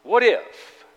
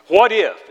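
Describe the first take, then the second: First: What if with the if weighed heavily; stress on if. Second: What if with the word if leaned on; stress on if. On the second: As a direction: press on the if in What if. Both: Shown as a demonstration. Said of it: "with emphasis on if".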